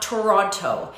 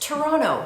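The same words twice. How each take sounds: First: It is pronounced the way outsiders often say it. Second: It is pronounced the way city locals say it. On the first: The speaker calls it wrong. "not Toronto. So I hear people making that mistake all the time" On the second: The speaker calls it right. "It's Toronto"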